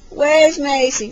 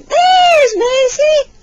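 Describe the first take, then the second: First: Said in the usual way. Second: Very high, loud and drawn out; slow, high, excited singsong; peekaboo reveal. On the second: Pretend. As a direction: burst out in delight for a baby.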